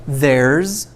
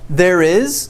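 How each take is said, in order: First: It is squeezed into one short syllable. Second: It is said as two separate full words.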